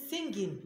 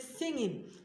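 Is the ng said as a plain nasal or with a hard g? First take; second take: hard g; plain nasal. First: The ng is followed by a hard g sound. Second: The ng is a plain nasal with no g. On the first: The speaker calls it wrong. "You don't say singing" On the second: The speaker calls it right. "you say singing"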